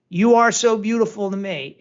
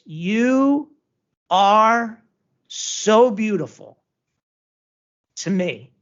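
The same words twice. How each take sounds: First: The line runs straight through without pauses. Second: The line is broken up by pauses. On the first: "he doesn't just go" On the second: "the punctuation of that"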